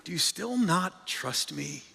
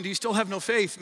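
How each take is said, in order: First: A touch of tender reassurance; gentle. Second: Needling. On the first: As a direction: ask it gently, as a caring friend. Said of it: "here's what I understand Jesus to be saying". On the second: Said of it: "we hear Jesus just kinda needling them". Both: Shown as a demonstration.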